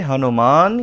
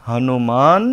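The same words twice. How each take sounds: Both takes have the same delivery.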